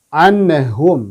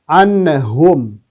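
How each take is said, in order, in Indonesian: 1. Bunyi n memantul dengan gema saat dilepas. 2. Bunyi n memantul dengan gema saat dilepas.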